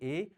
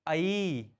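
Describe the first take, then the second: First: The vowel sounds like a plain 'e'. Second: The vowel sounds like 'ai'. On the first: The speaker calls it wrong. "बहुत बच्चे जब इनका उच्चारण करते हैं तो एक ही जैसे इनको बोल देते हैं" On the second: The speaker calls it right. "दूसरी आई"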